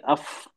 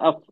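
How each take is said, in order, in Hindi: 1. ध्वनि में साँस बाहर निकलती रहती है। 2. ध्वनि छोटी और जल्दी में कटी हुई है। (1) "तो वक्त लेंगे अफ" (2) "यानी ऐसा नहीं पढ़ सकते ... बहुत जल्दी हो गया ये"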